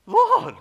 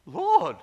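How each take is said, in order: First: Second Lord pushed to a near scream of shock; horrified cry, even stronger. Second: Horrified cry. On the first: Pastor reeling from God's words, shrieking Lord. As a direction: Lord shrieked out very high and very loud after a gasp. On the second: Pastor shocked by God's rebuke, horrified loud cry. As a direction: Lord blurted out high and very loud in shock. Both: Retold or imitated. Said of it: "And he was horrified".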